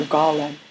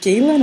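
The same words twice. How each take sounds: First: "Galen" said GAH-len; "Galen" as GAH-lun, first vowel like father; first-syllable open A. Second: "Galen" said GAY-len; "Galen" as GAY-lun, first vowel like day; first-syllable long A. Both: Shown as a demonstration. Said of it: "Is it Galen or Galen?".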